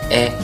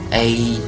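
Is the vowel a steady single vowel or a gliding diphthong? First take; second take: single vowel; diphthong. First: The vowel stays steady as a single vowel. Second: The vowel glides like a diphthong. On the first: "这是一个单元音" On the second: "如果我们发成了A，那么口型呢就是从大到小"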